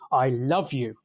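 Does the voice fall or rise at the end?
fall. The pitch falls at the end. It is a sincere declaration of love. "using a falling pitch contour, so said as sort of a statement"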